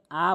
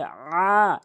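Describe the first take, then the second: First: "আ" as a plain hamza, no throat squeeze; hamza instead of ain. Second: "আ" squeezed from the throat, long; proper ain. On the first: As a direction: say "আ" lightly, the common mistake for ain. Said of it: "আইনের জায়গায় হামজা এনে উচ্চারণ করে". (আইনের বদলে হামজার "আ") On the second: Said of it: "এভাবে উচ্চারণ করবেন". (গলা থেকে টেনে আইনের "আ") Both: Shown as a demonstration.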